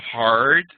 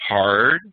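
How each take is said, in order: First: "hard" hit loud, short and crisp. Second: "hard" said loud and low with a puff of air after it; hard breathy "hard". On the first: Teacher demonstrating a hard stop, loud and crisp. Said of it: "So this is". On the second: Teacher contrasting the aspirated stop, low, loud and with breath. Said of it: "This is". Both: Shown as a demonstration.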